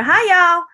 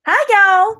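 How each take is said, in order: First: Higher, louder Texas drawl greeting on Hi, y'all; Texas accent. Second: Put-on Texas accent. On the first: Pretend. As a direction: greet the room like a cheery Texas gal. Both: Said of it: "my accent I'm doing right now is not a Texas accent".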